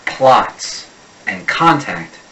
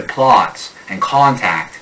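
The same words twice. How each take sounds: First: "plots and contact" with a flat American ah; slow American "plots and contact", open ah vowel; American short O. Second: "plots and contact" with a rounded Boston aw; Boston "plots", O pulled back toward aw. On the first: Coach contrasting American vowels, slow American "plots and contact". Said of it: "A typical American pronounces this". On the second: Coach showing the Boston mutation, "plots and contact" in Boston vowels. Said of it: "a guy from Boston mutates it to". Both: Shown as a demonstration.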